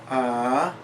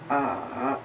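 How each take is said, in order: First: The pitch rises from middle to high. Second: The pitch goes down and then up. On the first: "a rising tone" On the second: "a falling rising tone, where it goes down and then up"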